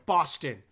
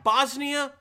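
First: "Boston" dropped low and falling; "Boston" lower, with a closing fall; contrasting Boston with Bosnia. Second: "Bosnia" high and loud, left hanging; "Bosnia" pitched up and punched; contrasting Bosnia with Boston. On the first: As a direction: answer with "Boston" pitched down. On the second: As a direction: lift "Bosnia" up as the first of two compared words. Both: Shown as a demonstration. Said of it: "I can understand Boston. You can maybe".

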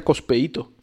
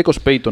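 First: "Cospeito" split into four syllables, I stressed; "Cospeíto", con tilde en la I; Cospeito with accent on the i. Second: "Cospeito" with the diphthong ei, no accent on the i; "Cospeito" acentuado en PEI, sin tilde; Cospeito without accent. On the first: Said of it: "si llevase el acento en la I sería Cospeito". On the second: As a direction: say "Cospeito" as cos-PEI-to, stress on PEI as one syllable. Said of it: "No tiene acento". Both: Shown as a demonstration.

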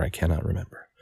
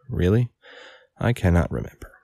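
First: "I cannot remember." as a flat, firm statement, no question lift. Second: "Really?" rising like a question, then "I cannot remember."; too questioning. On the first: Inglethorpe stonewalling the coroner, "I cannot remember." stated flatly. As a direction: close "I cannot remember." downward and settled. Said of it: "really, I can't remember, or I cannot remember". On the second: Inglethorpe answering the coroner, "Really?" rising like a question. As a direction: ask "Really?" with an upturned, doubting tune. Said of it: "I said that with too much of a question mark".

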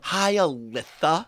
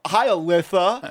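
First: Slow lisped Alitha, drawn out; mock her lisp slowly; mocking lisp back. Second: Slow, lisping Alitha thrown back; mocking lisp back. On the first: Retelling mocking the girl's lisp to her face. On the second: Joker mimicking the girl's lisp right to her face. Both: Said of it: "And right in her face".

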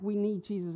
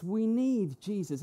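First: Imitating a routine, unfelt profession; casual lip service. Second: Slow, emphatic plea of real need; mean every word, leaning on NEED; heartfelt need. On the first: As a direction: toss it off like a stock phrase. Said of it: "that's what Christians kind of say". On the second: Acted. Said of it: "It's not like we need Jesus as in".

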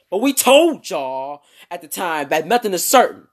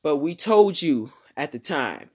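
First: Irritated, loud scolding with TOLD punched; angry voice. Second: Said in the usual way. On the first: Acted. Annoyed reporters telling fans off, loud and angry. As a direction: scold them as if they ignored your warning. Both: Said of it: "let me read that in their voice".

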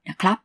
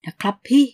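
First: Said in the usual way. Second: Rising, coaxing นะครับพี่ with pleading lift; coaxing plea. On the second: Acted. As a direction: sweet-talk her. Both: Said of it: "ได้ยินสองสามคำท้ายประโยค".

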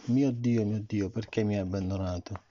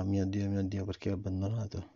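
First: A mild cry, voice lifted on the first words; crying out to God. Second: Said in the usual way. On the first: A narrator's reading. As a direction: call out to the Father, but restrained. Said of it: "Gesù gridò a gran voce". (grido trattenuto a Dio) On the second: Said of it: "Perché Gesù diceva".

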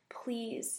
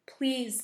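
First: Soft, understated plea; begging. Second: Louder, insistent cry of please; mildly acted tearful pleading; sobbing plea. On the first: Hurt woman begging the girls for help, softly pleading. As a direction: beg quietly, a touch pained. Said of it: "she begged". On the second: Limping woman calling to the girls from behind, sobbing plea. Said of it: "the limping woman sobbed". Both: A narrator's reading.

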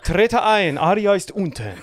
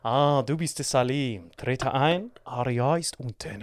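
First: Höher und lauter, aufgeregt nacherzählt; Vater, laut nacherzählt. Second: Leiser, langsamer, würdevoller Vater; königlich und gemessen begrüßen, langsam. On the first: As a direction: die Begrüßung begeistert ausrufen. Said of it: "Und er dann so". (Salim erzählt aufgeregt die Begrüßung des Vaters nach, laut) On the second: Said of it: "er steht einfach nur da". (Vater begrüßt Salim an der Tür königlich, leise und langsam) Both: Retold or imitated.

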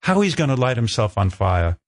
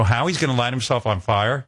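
First: Lightly imitated British producer; matter-of-fact announcement in a rough British accent; amateur, half-done British accent. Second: "Howie's gonna light himself on fire" echoed with a rising end; "fire" lifted into a question, in his own accent. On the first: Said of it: "She had a British accent". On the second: Retold or imitated. His puzzled reply to the producer.

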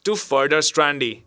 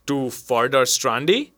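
First: "Strandy" said in a new, unfamiliar way, falling; new pronunciation. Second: Said in the usual way. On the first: A narrator's reading. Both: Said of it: "He pronounced the word in a new fashion".

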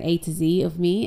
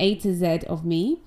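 First: "Z" said as zee, American style; American "Z" pronounced zee. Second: "Z" said as zed, the British way; English "Z" pronounced zed. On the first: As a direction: end "A to Z" with a light "zee". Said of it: "If I was American". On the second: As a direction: end "A to Z" with a crisp "zed". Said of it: "I have to do it in this accent". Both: Shown as a demonstration.

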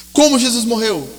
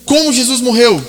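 First: Said in the usual way. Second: Emphatic question. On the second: Acted. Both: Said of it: "Segunda pergunta".

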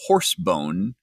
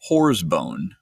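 First: "horse bone", the first word ending in an S, not a Z; HORSE BONE pronounced distinctly. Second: "whore's bone", drawn out, the first word ending in a Z; WHORE'S BONE pronounced distinctly. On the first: Group member explains guide's word, "horse bone" said with a clear S. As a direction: say "horse bone" with a crisp S sound in "horse". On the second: Group member corrects the mishearing, "whore's bone" said slowly with a Z. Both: Shown as a demonstration. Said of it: "not whore's bone".

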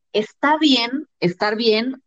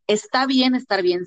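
First: "Está bien estar bien" put as an open question; asked as question. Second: "Está bien estar bien" stated as a settled fact; said as affirmation. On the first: Co-host recalls the episode's opening doubt, "Está bien estar bien" as a question. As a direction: ask "Está bien estar bien", leaving it unresolved. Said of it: "en vez de preguntarnos eso". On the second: Co-host turns the question round, "Está bien estar bien" as affirmation. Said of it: "yo lo diría como afirmación". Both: Shown as a demonstration.

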